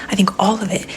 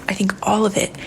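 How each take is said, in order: The two takes are said the same way.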